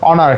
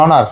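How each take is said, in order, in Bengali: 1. শব্দটি স্বরধ্বনি দিয়ে শুরু হয়। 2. শব্দটি স্বরধ্বনি দিয়ে শুরু হয়।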